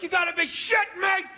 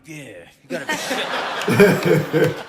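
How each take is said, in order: First: High, outraged shout; screaming at the ref. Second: Low, loud, slow growly dog voice; the dog echoing its owner in a low, drawn-out voice; imitated dog. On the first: Acted. Psycho dog owner watching the game, screaming at the ref. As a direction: yell it at the TV like an irate fan. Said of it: "you're screaming at the ref". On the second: Dog in the corner copying its screaming owner, as a low dog voice. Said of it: "the dog was in the corner being like".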